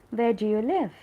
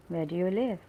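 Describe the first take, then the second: First: Loud, higher question with LIVE swooping up then down; questioning emphasis. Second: Said in the usual way. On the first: Shown as a demonstration. Teacher showing learners how to ask a question, loud stress on LIVE. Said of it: "you should also sound like you're asking a question". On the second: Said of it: "it looks like an assertive sentence".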